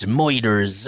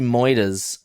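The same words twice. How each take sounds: First: It is said in a pirate-like accent. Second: It is said in the speaker's normal accent.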